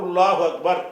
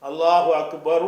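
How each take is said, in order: No difference in how they are said.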